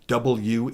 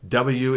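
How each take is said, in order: First: The letter is said carefully, every sound pronounced. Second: The letter is said sloppily, with sounds dropped. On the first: The speaker calls it right. "W is" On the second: The speaker calls it wrong. "W is not a letter"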